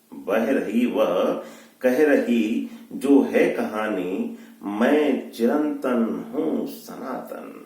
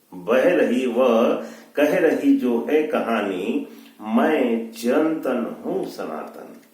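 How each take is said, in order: No difference in how they are said.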